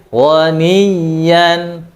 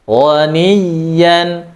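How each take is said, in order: No difference in how they are said.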